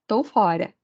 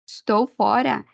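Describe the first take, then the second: First: The first word is shortened to one syllable. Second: The first word is said in full, two syllables. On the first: "Ele muda e fica tô" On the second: "esse tô é a abreviação de estou"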